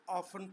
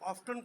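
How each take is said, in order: First: The t sound is left out entirely. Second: The t sound is clearly pronounced. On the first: This is how it is said in England. "इंग्लिस्तान में इसको ऑफन पढ़ा जाता है, ऑफ्टन नहीं पढ़ा जाता। यहाँ पर टी साइलेंट है" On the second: This is how it is said in America. "America में इसको ऑफ्टन पढ़ा जाता है, वो टी को साइलेंट नहीं करते"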